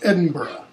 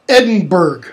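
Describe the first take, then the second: First: The name is pronounced the local way. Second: The name is pronounced the American way. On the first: The speaker calls it right. "It's Edinburgh" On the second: The speaker calls it wrong. "Americans say things like Edinburgh"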